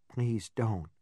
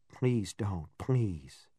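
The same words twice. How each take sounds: First: Quiet, trembling plea; dry trembling voice. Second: Quiet, low, trembling plea; dry trembling voice. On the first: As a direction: beg softly, voice shaking. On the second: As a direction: beg with a shaking voice. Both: A narrator's reading. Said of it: "I said in a dry and trembling voice".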